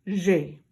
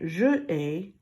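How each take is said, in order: First: The vowel of je is dropped entirely. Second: The vowel of je is pronounced separately. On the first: The speaker calls it right. "we're going to say j'ai" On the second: The speaker calls it wrong. "instead of saying je ai"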